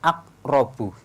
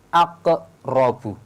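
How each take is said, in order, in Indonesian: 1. Bunyi q berakhir tanpa pantulan yang terdengar. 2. Bunyi q berakhir dengan pantulan yang terdengar. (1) "Tidak boleh hanya sekedar aqrabu. Ini kurang sempurna atau masih salah" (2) "yang benar aqrabu, ada bunyi pantulannya"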